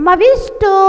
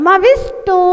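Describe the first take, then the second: No difference in how they are said.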